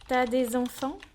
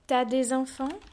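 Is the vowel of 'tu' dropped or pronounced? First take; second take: dropped; dropped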